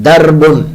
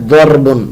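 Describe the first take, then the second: The two takes are said the same way.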